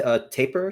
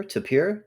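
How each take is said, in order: First: "tapir" with a long A and the stress on the first syllable, TAY-per. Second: "tapir" as tuh-PEER, stressed at the end and with a high rise. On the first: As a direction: say "tapir" as TAY-per, with a rising question tune. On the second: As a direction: switch to the other pronunciation, "tapir" as ta-PEER. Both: Shown as a demonstration. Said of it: "T A P I R?".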